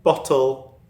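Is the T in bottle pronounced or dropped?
pronounced. The T is clearly pronounced, Northern Cheshire accent.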